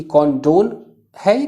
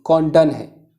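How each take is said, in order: First: कॉन्डोन with a long o in the second syllable, kon-DON; condone said kondon. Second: कॉन्डन with a short, reduced second syllable, KON-dan; condone said kondan. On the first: Teacher tells students the first way to say it: कॉन्डोन with a full o. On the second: Teacher gives students the other way people say it: कॉन्डन with a short a. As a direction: say कॉन्डन with a weak "a" vowel at the end. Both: Shown as a demonstration. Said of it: "अलग-अलग लोग अलग-अलग तरह से pronounce करते हैं".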